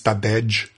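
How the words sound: The final J is said like an English j. The speaker calls it wrong. "the most they can do is Tadej"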